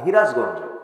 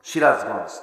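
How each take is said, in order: First: The name begins with an h sound. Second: The name begins with an s sound.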